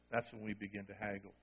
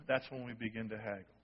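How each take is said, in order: First: Hushed, reflective echo; quiet echo. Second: Said in the usual way. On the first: Shown as a demonstration. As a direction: repeat it much softer, almost to yourself. Soft repeat for emphasis.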